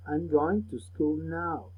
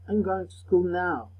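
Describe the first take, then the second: First: Very slow, deliberate model sentence; slow teacher repetition of "I'm going to school now"; said slowly. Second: Said in the usual way. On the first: Shown as a demonstration. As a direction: stretch every word out for the class to copy. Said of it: "Repeat the words slowly". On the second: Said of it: "Repeat the sentences with me".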